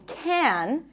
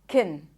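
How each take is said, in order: First: The word is stressed with a full vowel. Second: The word is unstressed with a reduced vowel. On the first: "In this case, it's stressed" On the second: "When it's unstressed in a sentence, ... Usually, it's pronounced as can"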